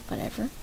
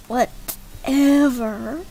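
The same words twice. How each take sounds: First: Said in the usual way. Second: "whatever" stretched very slow with rising end; louder, drawn-out mock "whatever"; exaggerated "whatever". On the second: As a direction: draw out "whatever" in two big pieces. Repeats it, exaggerated.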